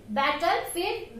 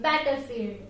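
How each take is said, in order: First: Battlefield said slowly and deliberately; slow Battlefield for the class; slow model word. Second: Said in the usual way. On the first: Shown as a demonstration. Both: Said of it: "Look here".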